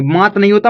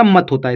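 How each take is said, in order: First: मात with a long aa; wrong long vowel. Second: मत with a short a; correct short vowel. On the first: Teacher rejecting a misreading to learners, मात with long aa. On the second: Teacher correcting the reading for learners, मत with short a. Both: Shown as a demonstration.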